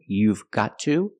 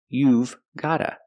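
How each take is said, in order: First: Every word is said in full, v included. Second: Got to is reduced to gotta, v kept. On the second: "pronunciation, gotta"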